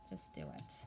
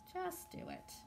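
First: Unvoiced, hushed push to act; whispered urging. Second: A higher, softer sing-song nudge; high soft urging. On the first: Tarot reader whispering to the viewers to just act. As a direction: breathe it like a secret nudge. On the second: Tarot reader coaxing the viewers in a higher voice. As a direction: lift it up lightly and coax. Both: Real, not acted.

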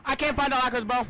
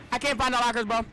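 The two takes are said the same way.

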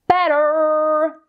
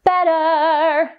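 First: "better" sung with a hard American r at the end; wrong over-rhotic vowel. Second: "Better" sung with an open, r-less final vowel; neutralized vowel. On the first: Vocal coach showing students the wrong "better", curled r. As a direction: sing "better" with a full curled r, the way to avoid. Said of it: "you don't really wanna sing". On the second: Vocal coach showing students the singable "Better", no r. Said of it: "So what you go". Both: Shown as a demonstration.

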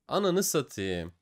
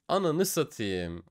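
No difference in how they are said.

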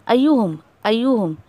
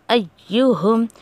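First: "अय्युहुम" with the doubled y dropped; wrong single y. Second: "अय्युहुम" with the y held and doubled. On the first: Teacher imitating a student's missed doubling. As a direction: say "अय्युहुम" without the shadda, as a mistake. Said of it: "ऐसे क्या हो रहा है". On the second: Teacher correcting the student's missed doubling. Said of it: "या का तशदीद आपसे छूट रहा है". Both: Shown as a demonstration.

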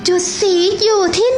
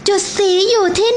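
The two takes are said the same way.

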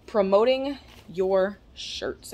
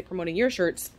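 First: "promoting your shirts" drawn out slowly, leaning on "promoting"; slow promo emphasis. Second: Said in the usual way. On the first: Shown as a demonstration. Pitching her sponsor's shirts to the Mama Dukes team, slow and emphatic. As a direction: sell "promoting" slowly, like an ad slogan. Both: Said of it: "And when I say promoting your shirts".

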